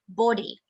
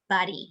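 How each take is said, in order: First: The word is said with a British accent. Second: The word is said with an American accent. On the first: "British body" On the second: "American body"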